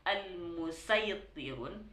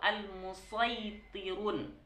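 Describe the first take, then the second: First: The s is a plain, light s sound. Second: The s is a heavy, emphatic s sound. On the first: "pakai sin" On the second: "memakai shad"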